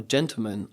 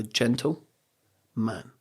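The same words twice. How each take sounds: First: Said in the usual way. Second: GENTLE, a clear pause, then MAN; broken into two words. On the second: Shown as a demonstration. Explaining the word gentleman, broken into two words. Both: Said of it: "I'll broke it down to".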